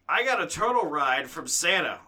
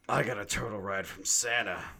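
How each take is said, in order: First: It is read in a plain, normal way. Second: It is read in a dark, brooding way.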